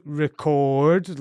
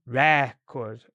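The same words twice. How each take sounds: First: Slow "record" with a drawn-out CORD; long second syllable. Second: Slow "record" with drawn-out RE, short cord; long first syllable. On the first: Teacher showing the sounds coming through, "record" with a long CORD. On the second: Teacher showing long and short sounds, "record" with a long RE. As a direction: stretch "re" in "record", then a short second syllable. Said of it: "long on the re and short on the second syllable". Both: Shown as a demonstration.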